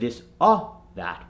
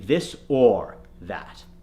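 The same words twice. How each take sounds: First: The R sound in 'or' is dropped. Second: The R sound in 'or' is clearly pronounced. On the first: The speaker calls it wrong. "the Indian accent will say ah, this or that. Instead of this or that" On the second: The speaker calls it right. "we need it to be this or that"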